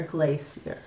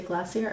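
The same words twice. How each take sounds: First: Glacier as "GLAY-see-er", softer. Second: Glacier as "GLASS-ee-er", softer. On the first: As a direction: say the second glacier with a long "ay". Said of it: "Do you say glacier or glacier?". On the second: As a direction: say the first glacier with a short "a". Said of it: "said it with an a". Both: Shown as a demonstration.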